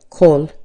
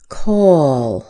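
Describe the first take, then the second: First: The word is short, with no extra uh sound. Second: The word is longer, with an uh before L. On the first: The speaker calls it wrong. "instead of call" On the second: The speaker calls it right. "A little longer, isn't it?"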